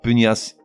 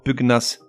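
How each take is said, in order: First: The g and n merge into one sound. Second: The g and n are said separately. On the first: The speaker calls it wrong. "et non pas pugnace" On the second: The speaker calls it right. "avec le G séparé du N"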